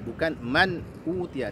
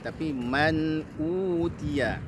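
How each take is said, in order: First: The n sound is clipped short. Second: The n sound flows on slightly longer. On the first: The speaker calls it wrong. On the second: The speaker calls it right. "Alirkan bunyi nunnya sedikit ya"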